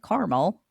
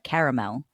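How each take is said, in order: First: It is said with two syllables, like Carmel. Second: It is said with three syllables, care-a-mel. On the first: This is how someone else says it. "You said caramel" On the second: This is how the speaker says it. "I'm like caramel"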